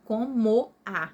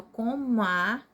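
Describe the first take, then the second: First: COMO A broken apart, co, mo, a; slow, louder separate beats on COMO A; syllable by syllable. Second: COMO A merged as one word, co-mua; slow, louder COMO A with the vowels glided together; run together. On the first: Teacher contrasting with the joined form, COMO A split in three. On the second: Teacher showing one word only, COMO A fused, co-mua. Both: Shown as a demonstration. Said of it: "é como se fosse uma palavra só".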